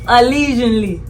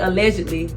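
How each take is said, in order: First: The middle sounds like the word lesion. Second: The middle sounds like the word ledge. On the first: This is the new trendy way to say it. "So it's lesion" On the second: This is the usual way to say it. "Usually we say allegedly"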